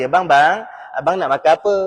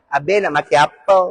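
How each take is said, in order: First: Gentle, coaxing wifely voice; speaking nicely. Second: Tomyam waitress. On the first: Wife asks her husband about eating, nice and gentle. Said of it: "cakap elok dengan lelaki". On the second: Waitress at tomyam shop asks a male customer, sweetly coaxing. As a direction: take the order in a coaxing lilt. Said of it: "lelaki suka pergi kedai toyam". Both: Acted.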